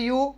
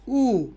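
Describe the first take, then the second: First: The letter is said as 'you'. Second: The letter is said as 'oo'. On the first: This is the English name of the letter. "English में यू" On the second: This is the German name of the letter. "German में ऊ"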